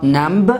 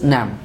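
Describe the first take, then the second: First: A b sound is pronounced after the m. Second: The word ends on m with no b. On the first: The speaker calls it wrong. "It is not namb" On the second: The speaker calls it right. "It is nam"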